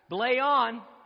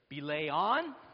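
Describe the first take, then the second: First: The voice falls at the end, like an answer. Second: The voice rises at the end, like a question.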